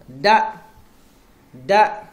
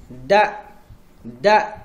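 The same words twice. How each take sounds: No difference in how they are said.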